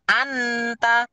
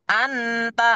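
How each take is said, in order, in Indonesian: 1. Bunyi n diucapkan penuh dan jelas. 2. Bunyi n diucapkan penuh dan jelas.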